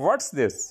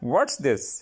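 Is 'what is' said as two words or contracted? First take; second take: contracted; contracted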